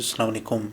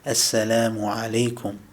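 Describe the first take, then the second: First: It is said quickly, with the words run together. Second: It is said slowly and clearly, each word full. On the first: The speaker calls it wrong. "as opposed to" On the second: The speaker calls it right. "So we say it like that"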